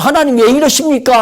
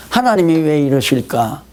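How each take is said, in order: First: Higher, louder reproach to God; resentful complaint. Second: Humble wondering. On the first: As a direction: whine at God from self-pity. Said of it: "하면 지혜가 무뎌져요". (원망하는 말투) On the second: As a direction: wonder calmly at God's plan. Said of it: "그러면 지혜가 점점 열리잖아요". (차분하고 겸손한 물음) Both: Retold or imitated.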